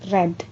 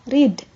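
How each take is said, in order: First: The vowel is short, like in 'red'. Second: The vowel is long, like in 'reed'. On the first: It is the past form of the verb. "sebagai verb dua dan verb tiga dibaca read" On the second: It is the present form of the verb. "sebagai verb ke satu ini dibaca read"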